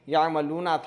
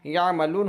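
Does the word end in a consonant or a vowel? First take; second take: vowel; consonant. First: The word ends with a final vowel. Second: The final vowel is dropped, ending on n. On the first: The reading continues without stopping. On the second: The reader stops at this word.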